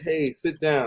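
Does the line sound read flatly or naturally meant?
read flatly. It sounds flat, like reading words off a page. The words are only being read from a script. The speaker calls it wrong. "I'm not gonna say"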